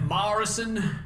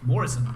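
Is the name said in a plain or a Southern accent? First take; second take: Southern; plain. First: It is said in a strong Southern accent. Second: It is said in a plain, neutral accent. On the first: The speaker calls it wrong. "He'd be like" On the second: The speaker calls it right. "There's not an A in it"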